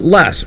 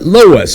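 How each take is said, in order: First: The word is given a Midwestern pronunciation. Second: The word is given a Southern pronunciation. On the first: "If you are from the Midwest, you call it less" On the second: "in the south, y'all, they call it loess"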